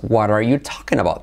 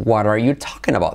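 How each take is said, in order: First: The words run together with changed sounds. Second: The words run together with changed sounds.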